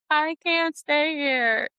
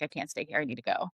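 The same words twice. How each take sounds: First: High, drawn-out retold wail; mock breakdown. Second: Low, soft and resigned; subdued retold plea. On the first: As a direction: stretch it out high, imitating a meltdown. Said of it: "I was having a Menti-B". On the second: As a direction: drop low and quiet, retelling a need to escape. Retells her breakdown, first take.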